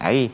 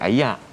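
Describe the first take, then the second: First: The word ends in an 'r' sound. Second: The word ends in a 'yak' sound. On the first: This is how the capital's dialect says it. "Kuala Lumpur ni mungkin panggil air" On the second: This is how the northern Kedah dialect says it. "Kedah mungkin panggil ayak"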